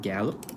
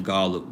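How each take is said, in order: First: Gallup with a short "a" as in cat: GAL-up; corrected pronunciation. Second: Gallup with an open "ah": GAH-lup; old pronunciation. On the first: Repeating the name after a played sample, corrected GAL-up for Gallup. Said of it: "I'll say it right". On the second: Correcting himself after hearing the name played, old pronunciation of Gallup as GAH-lup. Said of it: "I was saying Gallup, but". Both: Shown as a demonstration.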